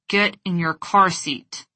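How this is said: It is said through clenched teeth, seething. "With clenched teeth, squinted eyes, and a seething tone of voice"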